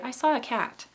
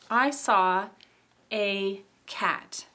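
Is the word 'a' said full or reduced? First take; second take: reduced; full. First: The word 'a' is reduced to a schwa. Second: The word 'a' is said as a full vowel. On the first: "that a would become a schwa" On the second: "we don't say"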